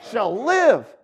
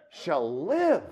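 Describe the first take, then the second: First: "shall live" louder, "live" punched; stress on LIVE. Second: "Shall live" plain, falling on "live"; stress on live. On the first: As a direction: hit "live" hard. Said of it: "ought to get you fired up". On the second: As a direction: let "live" land calmly. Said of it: "you can emphasize different parts of it". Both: Shown as a demonstration.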